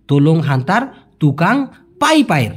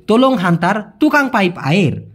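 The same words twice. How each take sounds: First: তোলং হান্তার তুকাং পাইপ আয়ের said again lower and deliberate, with পাইপ stressed; careful repeat. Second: Said in the usual way. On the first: Shown as a demonstration.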